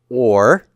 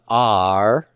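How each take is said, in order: First: The vowel is a short oh sound. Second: The vowel is an open ah sound. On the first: The speaker calls it right. "this is a short O" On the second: The speaker calls it wrong. "not are"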